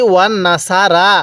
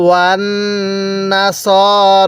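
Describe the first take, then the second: First: ওয়ান্নাসারা with a long drawn -সারা at the end; wrong long ending. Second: ওয়ান্নাসর stopped short on র, slow; correct short ending. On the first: Teacher shows the common mistake ওয়ান্নাসারা. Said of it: "যদি এরকমভাবে পড়েন". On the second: Teacher gives the correct ওয়ান্নাসর to repeat. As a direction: end ওয়ান্নাসর short on র, no added vowel. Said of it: "আমার সাথে পড়ুন". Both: Shown as a demonstration.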